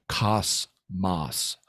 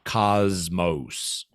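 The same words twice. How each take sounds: First: The word is pronounced with Greek sounds. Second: The word is pronounced with English sounds. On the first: "notice I'm pronouncing it the Greek way" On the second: "that's an English pronunciation"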